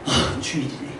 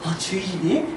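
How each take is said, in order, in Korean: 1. 내키지 않고 피곤한 것 같아요. 더 자고 싶은 것처럼요. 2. 기쁘고 신나는 것 같아요. 억양이 생기 있어요. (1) "더 자고 싶은데 이거는 법 아래 있는 사람" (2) "막 이러면 은혜 아래 있는 사람인 거예요"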